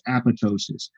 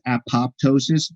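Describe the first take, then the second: First: The second p sound is silent. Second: The second p sound is pronounced. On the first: The speaker calls it right. "the second P is actually silent. It's apoptosis" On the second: The speaker calls it wrong. "A lot of people mispronounce this apoptosis"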